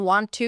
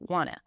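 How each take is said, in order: First: Both words are said fully and separately. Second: The words blend into one reduced form.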